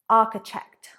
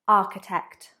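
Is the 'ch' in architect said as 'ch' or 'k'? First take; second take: ch; k. First: The 'ch' is said as in 'church'. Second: The 'ch' is said as a 'k' sound. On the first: The speaker calls it wrong. "often pronouncing it architect" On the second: The speaker calls it right. "but it is architect"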